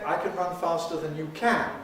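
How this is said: The main accent falls on the final "can". The speaker calls it wrong.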